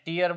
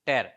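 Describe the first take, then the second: First: The vowel sounds like the vowel in 'ear'. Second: The vowel sounds like the vowel in 'air'. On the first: It means a drop from the eye. "આને ટીયર બોલો તો આ શું થાય?" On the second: It means to rip something. "ટેર બોલો તો ફાડવું થાય"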